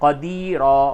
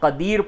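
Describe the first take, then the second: First: The word ends with a long 'a' vowel. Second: The word ends on the final consonant. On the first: The speaker calls it right. "अलीमा क़दीरा इस तरह से पढ़ा जाएगा।" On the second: The speaker calls it wrong. "बहुत से लोग इस जगह पे ये गलती करते हैं कि अलीम और क़दीर पढ़ते हैं, ये बिल्कुल ही गलत है।"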